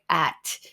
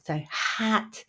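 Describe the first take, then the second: First: The word begins straight on the vowel. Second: The word begins with a light h breath. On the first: The speaker calls it wrong. "they don't pronounce it at all" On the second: The speaker calls it right. "breathe in first and just let the breath out with the vowel"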